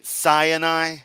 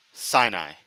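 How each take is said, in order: First: "Sinai" as SIGH-uh-nye, higher and held; mimicked mispronunciation. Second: "Sinai" in two syllables, SIGH-nye; lower, falling "Sinai", no middle uh; corrected pronunciation. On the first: Commentator parroting the preacher's "Sinai", SIGH-uh-nye in three syllables. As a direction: draw out "Sinai" with an added middle uh. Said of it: "If it is pronounced with the A". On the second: Shown as a demonstration. Commentator correcting the preacher, "Sinai" as SIGH-nye. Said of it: "it's Sinai".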